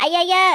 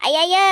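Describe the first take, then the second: No difference in how they are said.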